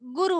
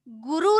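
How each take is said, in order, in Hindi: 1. उ की मात्राएँ छोटी रखी जाती हैं। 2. उ की मात्राएँ लंबी खींची जाती हैं। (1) "छोटा उ की मात्रा होता है" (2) "गुरु नहीं होता है"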